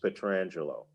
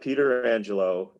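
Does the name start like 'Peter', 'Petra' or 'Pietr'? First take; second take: Pietr; Peter. First: The name starts with a 'Pietr' sound. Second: The name starts with a 'Peter' sound. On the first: The speaker calls it right. "he will tell you it's Alex Pietrangelo" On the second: The speaker calls it wrong. "It's not Peter Angelo"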